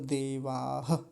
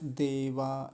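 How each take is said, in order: First: The word ends with an audible breathy h. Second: The word ends on a plain vowel, no h. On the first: The speaker calls it right. "देवाह ऐसा बोलेंगे" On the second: The speaker calls it wrong. "देवा ऐसे करके छोड़ दिया जाता है"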